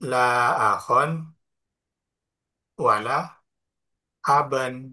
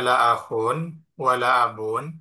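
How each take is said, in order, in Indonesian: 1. Kata benda itu berakhiran bunyi -an. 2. Kata benda itu berakhiran bunyi -un. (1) "bisa dinasabkan" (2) "Bisa dirofakkan"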